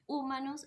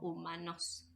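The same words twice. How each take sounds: First: The stress is on the first syllable. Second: The stress is on the last syllable. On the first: "no digo ni humanos" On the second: "ni digo humanos"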